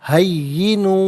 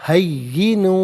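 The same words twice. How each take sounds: Both takes have the same delivery.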